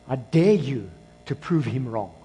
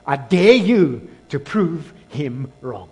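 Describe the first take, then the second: First: Said in the usual way. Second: Slow it right down, leaning hard on "dare"; weighty "dare", then each word spaced out; emphatic challenge. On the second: Real, not acted. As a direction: DARE drawn out and punched louder. Challenge repeated with more force.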